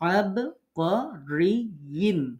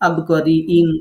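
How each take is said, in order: First: A smooth y-glide links into the ending. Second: A glottal catch breaks the word before the ending. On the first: The speaker calls it right. "খেয়াল করে সুন্দর করে" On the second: The speaker calls it wrong. "এরকম হামজা মতো পড়া হয়ে যায়"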